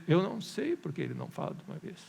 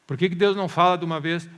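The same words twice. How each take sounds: First: Unbothered, toned-down reply; calm answer to an impatient question; matter-of-fact admission. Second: Loud, exasperated mock question; raised-voice impatient questioning; impatient demand. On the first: Shown as a demonstration. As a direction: concede it simply, without pushing. Preacher's own answer, same words. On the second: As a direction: demand an answer like a fed-up believer.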